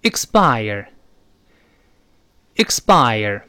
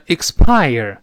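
First: "expire" as "iks-bire", slowly, falling; voiced p. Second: "expire" wrongly with an aspirated p, "iks-pire"; unvoiced mistake. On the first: Teacher leading the corrected reading, "expire" as "iks-bire". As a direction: say "expire" with the p unaspirated, almost b. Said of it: "那么这个声带就得震动了". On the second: Teacher showing the error to avoid, "expire" with breathy p. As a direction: puff the p in "expire". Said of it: "所以不要读成". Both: Shown as a demonstration.

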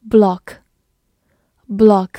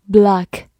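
First: Block with a British short rounded o; British "block", short o as in British "hot"; British pronunciation. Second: Block with an American open "ah" vowel; American "block", unrounded vowel; American pronunciation. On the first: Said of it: "美式发音读作block". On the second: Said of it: "美式发音读作". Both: Shown as a demonstration.

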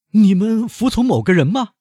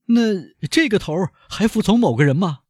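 First: High, loud, disbelieving question; high shocked banker asking, rising at the end; incredulous banker. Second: High, loud banker questioning, leaning on 这; high doubtful banker asking; incredulous banker. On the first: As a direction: demand it in disbelief as the captive banker. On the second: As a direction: press him as the captive banker. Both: Acted. Danglars questions the bandit chief.

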